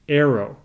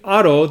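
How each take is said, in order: First: The name is said with English sounds. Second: The name is said with Japanese sounds. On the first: "when I say it in English" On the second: "the Japanese pronunciation"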